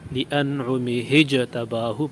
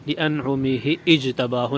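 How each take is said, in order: First: The second word is joined on with an h. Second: The second word starts with a glottal stop. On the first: The speaker calls it right. "Hamza को गिरा देंगे। लिअनउमि हिजतबाहु पढ़ेंगे" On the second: The speaker calls it wrong. "लिअनउमि इजतबाहु नहीं पढ़ेंगे"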